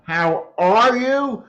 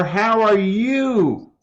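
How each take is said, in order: First: "are" stressed, slow falling; slow "How ARE you?". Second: "you" stressed, slow falling; slow "How are YOU?". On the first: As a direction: put the weight on "are". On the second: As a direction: put the weight on "you". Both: Shown as a demonstration. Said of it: "where you put the emphasis".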